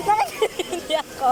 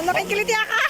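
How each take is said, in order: First: Being tickled. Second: Laughing while tickled; squealing as fish nibble; being tickled. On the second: (kinikiliti habang tumatawa) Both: Real, not acted.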